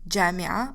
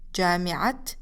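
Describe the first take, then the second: First: The word ends without a t sound. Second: The word ends with a clear t sound. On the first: The word stands alone. "جامعة alone, you don't pronounce it as تا" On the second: The word is joined to a following noun. "This is how it should be pronounced, as a تا"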